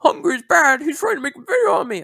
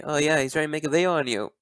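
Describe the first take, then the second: First: Much higher and louder, mimicking a whine; whiny mock quote. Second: Said in the usual way. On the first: Mocking Crimson's complaint about Hungry in a high whiny voice. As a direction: whine it like a tattling kid.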